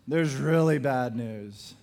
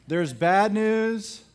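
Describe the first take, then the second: First: "really" punched as the key word; stress on really. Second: "bad" in "there's bad news" said slow and weighty; slow stress on bad. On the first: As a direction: hit "really" harder than the rest. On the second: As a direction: lean slowly on "bad". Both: Shown as a demonstration.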